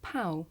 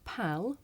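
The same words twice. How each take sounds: First: "pow" for pal, the L turned into a w-like vowel; final L dropped. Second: "pal" with the L fully sounded at the end; final L sounded. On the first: Teacher showing the L sound disappear, "pow" without L. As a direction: let the end of "pow" glide to oo, no tongue-tip L. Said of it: "make the L sound disappear". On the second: Teacher showing both ways to say it, "pal" with L sounded. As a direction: finish "pal" on a clear tongue-made L. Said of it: "So I can say". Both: Shown as a demonstration.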